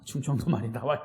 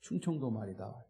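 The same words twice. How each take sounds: First: Low Chungcheong lilt, rising at the end; Chungcheong dialect. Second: Said in the usual way. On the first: Shown as a demonstration. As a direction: let the Chungcheong accent slip out playfully. (충청도 사투리로) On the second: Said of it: "서울말 쓰라고 그래도".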